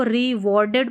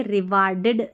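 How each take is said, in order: First: रिवॉर्डेड with a rounded "aw", ri-wor-ded; correct pronunciation. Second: रिवार्डेड with an open aa, ri-waar-ded; wrong pronunciation. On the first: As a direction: say रिवॉर्डेड with middle syllable like war. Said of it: "इसको रिवॉर्डेड पढ़ेंगे". (रिवॉर्डेड को सही ढंग से, गोल ऑ के साथ बोलें) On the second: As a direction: misread रिवार्डेड with "aa" in place of "aw". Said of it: "रिवार्डेड नहीं पढ़े". (रिवार्डेड को गलत ढंग से, लंबे आ के साथ बोलें) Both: Shown as a demonstration.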